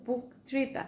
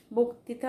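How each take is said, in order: First: বক্তৃতা said with a closed o as boktrita; correct pronunciation. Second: বক্তৃতা said with an open অ after ব, the usual mistake; wrong pronunciation. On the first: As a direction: say বক্তৃতা correctly, o sound after ব. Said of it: "কিন্তু বক্তৃতা". (শুদ্ধ উচ্চারণে বক্তৃতা, ও-কারের মতো) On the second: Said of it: "আমরা প্রায় বলি". (প্রচলিত ভুল উচ্চারণে বক্তৃতা) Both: Shown as a demonstration.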